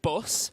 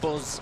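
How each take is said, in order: First: The word ends with a hissing s sound. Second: The word ends with a buzzing z sound. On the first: "instead of bus" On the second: "they'll say buzz"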